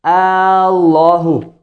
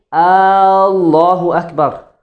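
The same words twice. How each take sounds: First: "Allahu" with the first a drawn out long, very slow; lengthened hamza "Aaallahu"; wrong mad on hamza. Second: Allahu with short a on the hamza, slow; correct takbir. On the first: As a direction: stretch the opening a of "Allahu" into a question. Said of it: "Instead of saying, "Allahu," you say". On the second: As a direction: say "Allahu" with no lengthening of the first a. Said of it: "don't put a mad on the hamza". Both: Shown as a demonstration.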